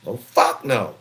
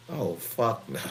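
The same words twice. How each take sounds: First: Louder, firm "Oh, fuck no"; loud refusal. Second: Said in the usual way. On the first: Retold or imitated. Father refusing to let his daughters strip, loud refusal. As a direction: shut the idea down hard.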